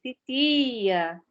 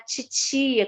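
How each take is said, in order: First: The t is a plain t at the teeth. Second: The t sounds like a hissing ch. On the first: This is how it is said in other places. "Com a língua mais no, de, no dente" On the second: This is how it is said in Rio de Janeiro. "com esse chiado"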